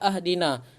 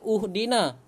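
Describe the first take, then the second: First: The word begins with an a vowel. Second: The word begins with a u vowel. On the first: "Tidak dibaca ahdina" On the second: "Tidak dibaca uhdina"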